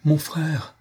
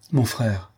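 First: S'écrier, plus aigu, en élan vers son frère; cri de joie. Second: Said in the usual way. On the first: A narrator's reading. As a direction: appeler son frère avec ferveur, voix qui monte. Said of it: "s'écria-t-il". (un frère s'écrie en retrouvant Saint-Georges, aigu et fervent) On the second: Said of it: "reprit-il".

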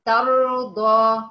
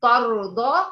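First: ترضى slowly and louder, light taa and heavy raa; slow correct recitation of ترضى; correct demo. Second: ترضى with a heavy ط-like taa; imitating the student's heavy taa in ترضى; wrong taa demo. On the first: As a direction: model ترضى right, taa thin, raa full. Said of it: "تاء، تاء،". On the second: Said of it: "ما تقوليش طا". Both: Shown as a demonstration.

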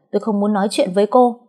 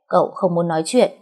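First: "tôi không muốn nói chuyện với cô" snapped louder, higher and quick; irritated snap. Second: "Cậu không muốn nói chuyện" said lightly through a grin; grinning cheekily. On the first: Refusing to talk with Thơm, irritated and fast. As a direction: bark it out fast to shut her down. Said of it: "Mình gắt om sòm". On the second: Thơm teasing the grumpy young master, grinning. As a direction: toss his words back at him, teasing. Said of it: "cười toe toét". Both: Acted.

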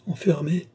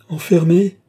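First: High-pitched cry, held back in volume. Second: Loud, high, outraged cry; shouting. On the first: Lorenza ignores Balsamo's soothing, crying out. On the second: Lorenza shouts over Balsamo without listening, crying out. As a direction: shout it out, pitch raised. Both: A narrator's reading. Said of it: "criait Lorenza sans écouter Balsamo".

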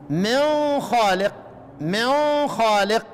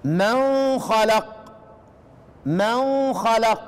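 First: من خالق very slow, the nun hidden in a nasal hum before خ; ikhfa with ghunna. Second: من خلق drawn out very slowly, the nun clear with no nasal hum; izhar recitation. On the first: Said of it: "يبقى نقرأ إيه؟". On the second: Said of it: "كيف النطق؟". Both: Shown as a demonstration.

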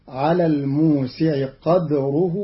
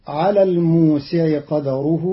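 First: قدره with silent echoing dal, qadruh; Qalun's silent dal. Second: قدره with a vowel on the dal, qadaruh; common reading. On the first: Teacher showing Qalun's reading, dal stopped with echo. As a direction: bounce the stopped dal in قدره: qad-ruh. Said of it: "بإسكان الدال مقلقلة". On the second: Reciter giving the common reading first. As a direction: say قدره as qa-da-ruh. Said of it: "قرأ قالون كلمتي قدره". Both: Shown as a demonstration.

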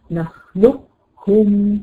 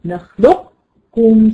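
First: نخلقكم slow, qaf pronounced before the kaf; without merging. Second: نخلقكم slow, qaf folded into a doubled kaf; merged reading. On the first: Teacher shows the reading to set against the merged one. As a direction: hold نخلقكم slowly with a separate qaf. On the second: Teacher shows the preferred merging to her student. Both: Shown as a demonstration. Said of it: "شايفة أنا بعملها إزاي؟".

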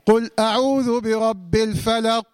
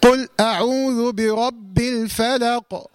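First: Slow recitation that swallows the final ق of "الفلق"; missing qalqala. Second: Slow recitation with a bouncing echo on the final ق of "الفلق"; correct qalqala. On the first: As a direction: stop dead on "الفلق", leaving its ق unreleased. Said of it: "وكثير من الناس يخطئ فيها". (تلاوة خاطئة بقاف مكتومة بلا قلقلة في "الفلق") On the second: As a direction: release the ق of "الفلق" with a clear bounce. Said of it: "يبقى أقولها إزاي؟". (تلاوة متأنية مع قلقلة واضحة في قاف "الفلق") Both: Shown as a demonstration.

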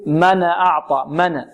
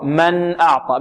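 First: «من أعطى» with a stray vowel bouncing off the noon; bounced noon. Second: «من أعطى» with the noon still, no vowel after it; correct still noon. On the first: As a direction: demonstrate the error, «من» turning into mana. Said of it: "يقلقل النون أو يحركها". (قلقلة نون «من» خطأً) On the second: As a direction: model «من» closed firmly on n. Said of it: "لا، خطأ". (نون «من» ساكنة مظهرة) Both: Shown as a demonstration.

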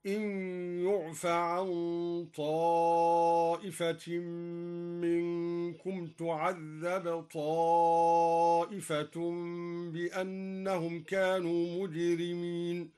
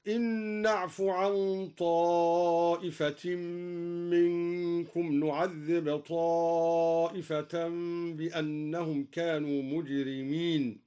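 First: يعف and تعذب with the u of the passive, slow chant; passive reading. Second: Slow, drawn-out chanted recitation; Quran recitation. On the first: Shown as a demonstration. Reciter showing the passive variant, chanted slowly. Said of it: "مبنية للمجهول أيضًا هكذا". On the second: Acted. Reciter chanting verses to listeners, slow and drawn out. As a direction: chant it slowly with long held vowels.

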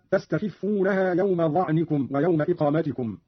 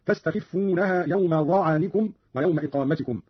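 First: Said in the usual way. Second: ظعنكم said "dha'anikum", a after the ayn; fatha on ayn. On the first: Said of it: "قرأ قالون بفتح العين". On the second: Shown as a demonstration. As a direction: open the ayn of ظعنكم with a short a. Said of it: "بفتح العين هكذا". (فتح العين في ظعنكم)

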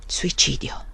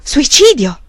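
First: Soft, whispered, hollow answer; empty, drained whisper. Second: Incredulous, rising question of horror; horrified question. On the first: Magnus confirms the suicide to the prior, hollow whisper. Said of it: "rispose Magnus con voce vuota". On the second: The prior repeats the word in horror, disbelieving. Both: A narrator's reading.

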